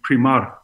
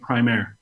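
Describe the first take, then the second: First: It is pronounced in a Scandinavian way. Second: It sounds like English 'prime air'. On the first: It follows the original Scandinavian language. "in Danish or Swedish, it should be primar" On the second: It is a play on the words prime and air. "the pronunciation of primaire, with the idea that it was a play on words with prime, air"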